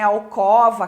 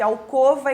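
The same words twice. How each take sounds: First: The stressed O vowel is open. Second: The stressed O vowel is closed. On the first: The speaker calls it wrong. "seria uma pronúncia mais aberta" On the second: The speaker calls it right. "Timbre fechado"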